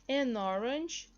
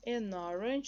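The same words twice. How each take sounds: First: Slow, drawn-out "An orange"; slow model pronunciation. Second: Said in the usual way. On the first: Shown as a demonstration. Teacher presenting an example to learners, slow model pronunciation. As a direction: say "An orange" at half pace, emphatically.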